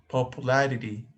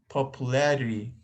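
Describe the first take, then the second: The two takes are said the same way.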